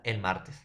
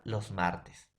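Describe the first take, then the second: First: El in el martes leaned on as the singular article; el martes, article el stressed to mark singular. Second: Los in los martes leaned on as the plural article; los martes, article los stressed to mark plural. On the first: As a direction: hit el in el martes, then drop martes. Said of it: "Si es singular". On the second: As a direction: hit los in los martes, then drop martes. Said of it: "Si es plural". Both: Shown as a demonstration.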